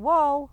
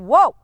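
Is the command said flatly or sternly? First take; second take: flatly; sternly. First: The command is said in a flat, unchanging tone. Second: The command is said in a firm, stern tone. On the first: The horse will tune it out and ignore it. The speaker calls it wrong. "you don't change your tone of voice" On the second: The horse knows exactly what is expected. The speaker calls it right. "You can be that stern"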